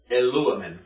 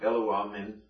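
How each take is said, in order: First: "Eluamen" stressed on the antepenult, lu; "Eluamen" accented on its third-from-last syllable; stress shifted back. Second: "eluamen" with no syllable stressed; unaccented, level "eluamen". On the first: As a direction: punch the "lu" in "Eluamen". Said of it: "So we would shift back". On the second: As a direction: say "eluamen" evenly, deliberately leaving off the accent. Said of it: "deliberately not pronouncing it with stress". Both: Shown as a demonstration.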